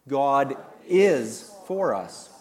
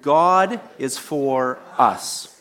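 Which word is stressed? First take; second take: is; us. First: The stress is on the word is. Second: The stress is on the word us.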